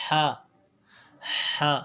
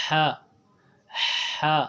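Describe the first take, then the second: Both takes have the same delivery.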